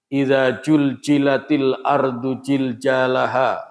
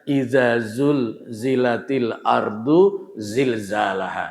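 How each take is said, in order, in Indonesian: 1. Konsonan kuncinya diucapkan dengan bunyi 'j'. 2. Konsonan kuncinya diucapkan dengan bunyi 'z'. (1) "jangan ditukar antara zai z sama jim ya" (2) "Yang kita hafal biasanya"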